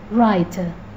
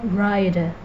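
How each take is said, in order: First: The middle t is a crisp t. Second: The middle t sounds like a soft d. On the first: "whereas British accent would sound writer" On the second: "In American English, the word writer may sound like rider"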